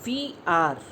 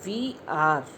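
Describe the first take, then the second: No difference in how they are said.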